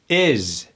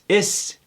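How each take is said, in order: First: The final sound is a buzzing z. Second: The final sound is a hissing s. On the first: The speaker calls it right. "S's with the Z sound" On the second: The speaker calls it wrong. "we automatically want to say"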